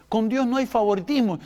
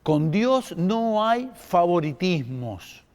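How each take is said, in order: First: Said in the usual way. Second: "Con Dios no hay favoritismos" said slowly, every word weighed, with weight on "Dios"; a deliberate, slowed restatement of "Con Dios no hay favoritismos"; slow emphatic repeat. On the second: Shown as a demonstration. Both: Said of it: "¿Viste?".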